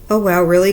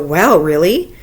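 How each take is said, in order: First: It sounds flat, as if already known. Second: It sounds genuinely surprised and lively.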